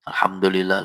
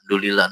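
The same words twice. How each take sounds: First: It is said slowly and carefully. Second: It is said hurriedly and fast.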